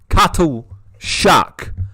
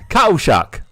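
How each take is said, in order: First: The T in the middle is clearly pronounced. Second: The T in the middle is dropped.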